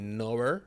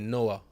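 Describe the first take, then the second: First: It is said in a standard accent. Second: It is said in a Jamaican accent.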